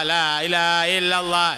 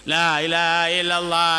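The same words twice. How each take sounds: Both takes have the same delivery.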